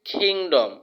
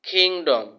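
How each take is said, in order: First: The k is said with a strong puff of air. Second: The k is said with a strong puff of air.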